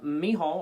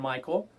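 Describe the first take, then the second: First: The middle consonant is a breathy h sound. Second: The middle consonant is a hard k sound. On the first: "it said Mihal was how you pronounce it" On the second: "once again I grew up saying Michael"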